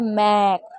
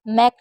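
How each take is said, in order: First: The vowel in the word is long. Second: The vowel in the word is short. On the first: The speaker calls it right. "मैक लंबा पढ़ेंगे" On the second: The speaker calls it wrong. "इसको मैक नहीं पढ़ेंगे"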